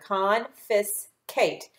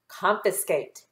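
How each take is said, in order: First: Very slow "Confiscate" split into its parts; slow syllable by syllable. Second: Said in the usual way. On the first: Shown as a demonstration. Teacher models slow blending for the pupils. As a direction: sound out each syllable slowly. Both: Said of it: "put those three syllables together".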